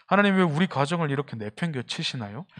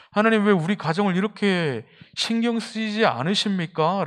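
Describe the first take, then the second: First: Said in the usual way. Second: Rising plea. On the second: Retold or imitated. Preacher recalling his own prayer to God, higher and pleading. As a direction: push the 왜 up as the complaint grows. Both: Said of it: "저는 굉장히 많아요".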